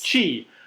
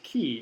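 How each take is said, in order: First: The word begins with a 'ch' sound. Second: The word begins with a 'k' sound. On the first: The speaker calls it right. "Chi. Thank you" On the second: The speaker calls it wrong. "It's not called key"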